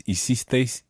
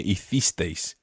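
First: Hicisteis with an s sound for the c; Latin American pronunciation. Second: Hicisteis with a lisped th for the c; Castilian pronunciation. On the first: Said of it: "using Latin American pronunciation". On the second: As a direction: say the c in hicisteis as English th. Teacher models Castilian, then Latin American. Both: Shown as a demonstration.

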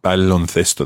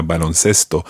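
First: "Baloncesto" with a th sound for the c; Castilian pronunciation. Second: "baloncesto" with an s sound for the c, pitched lower; Latin American pronunciation. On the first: Teacher confirms the student's answer, "Baloncesto" with a Castilian th. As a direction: say "Baloncesto" the Spain way, c as th. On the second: Teacher shows the regional variant, "baloncesto" with a Latin American s. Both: Shown as a demonstration. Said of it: "or in Latin America".

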